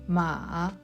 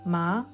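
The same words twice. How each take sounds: First: The pitch dips down then rises. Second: The pitch starts lower and rises. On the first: It means horse. "The third tone goes down and then up" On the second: It means hemp. "The second tone starts lower and rises upward"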